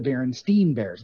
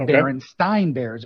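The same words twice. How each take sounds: First: The name ends with a 'steen' sound. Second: The name ends rhyming with Frankenstein. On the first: This is how it was actually said. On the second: This is how the speaker expected it to sound.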